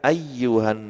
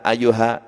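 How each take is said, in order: First: The y sound is doubled and held. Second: The y sound is single and short. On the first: The speaker calls it right. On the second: The speaker calls it wrong.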